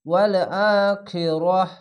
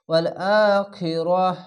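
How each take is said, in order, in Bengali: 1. শেষ শব্দটি 'h' উচ্চারণে শেষ হয়। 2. শেষ শব্দটি 'h' উচ্চারণে শেষ হয়।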